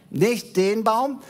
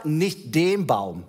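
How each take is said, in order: First: "Nicht den Baum" slow and higher, rising on "Baum"; Adam correcting his Father again, "Baum" lifted in a rising tone; higher insistence. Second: "nicht den Baum" drawn out slowly, stress on "den", falling; Adam slowly correcting his Father, "nicht den Baum" with the weight on "den"; slow insistence. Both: Acted. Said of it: "Nein, Papa".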